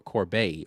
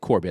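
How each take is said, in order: First: The name is said with a French sound. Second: The name is said with a plain English sound. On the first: "put a little French spin on it" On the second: "Corbett is probably the correct pronunciation"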